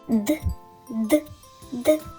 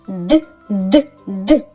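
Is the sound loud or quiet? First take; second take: quiet; loud. First: The sound is said quietly. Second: The sound is said loudly. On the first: The woodpecker is knocking far away in the forest. "Вимовимо разом тихо його пісеньку" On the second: The woodpecker is knocking close by. "Вимовимо разом голосну його пісеньку"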